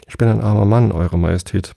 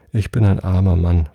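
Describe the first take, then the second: First: A touch of trembling, pleading with the king; poor man, mildly frightened plea; understated trembling plea to his majesty. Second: Said in the usual way. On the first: A narrator's reading. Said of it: "mit zitternder Stimme". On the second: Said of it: "fuhr der Hutmacher fort".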